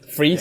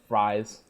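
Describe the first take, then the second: First: The vowel sounds like the word 'freeze'. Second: The vowel sounds like the word 'fries'. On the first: This is how the comics say the name. "pronounced Freeze" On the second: This is how the film says the name. "This is how they say it"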